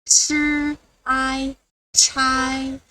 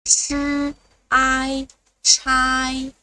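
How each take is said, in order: Both takes have the same delivery.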